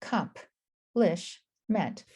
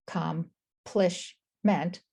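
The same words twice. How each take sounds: First: "accomplishment" very slowly as ac, comp, lish, ment; syllable by syllable. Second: "accomplishment" very slowly as ac, com, plish, ment; syllable by syllable. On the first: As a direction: gaps in "accomplishment", moving the p to "comp". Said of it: "or you could break it up". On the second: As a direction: gaps in "accomplishment", keeping "plish" whole. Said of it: "break them up like I did". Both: Shown as a demonstration.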